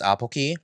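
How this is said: The name is said with Korean pronunciation. "in the Korean pronunciation is Apoki"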